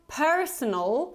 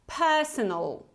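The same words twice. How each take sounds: First: An R sound is heard after the first vowel. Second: No R sound is heard after the first vowel. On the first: The speaker calls it wrong. "we don't pronounce this R ending, so it's not personal" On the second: The speaker calls it right. "but more like per, personal"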